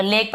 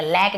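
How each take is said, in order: First: "लेक" as lake; long narrow ay in "लेक"; teacher modelling the vowel of "लेक"; correct ay pronunciation. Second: "लैक" as lack; deliberately wrong wide vowel in "लैक"; wrong ae pronunciation. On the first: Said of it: "तो लेक पढ़ेंगे". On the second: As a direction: misread lake as "लैक", open ae. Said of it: "लैक नहीं पढ़ेंगे". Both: Shown as a demonstration.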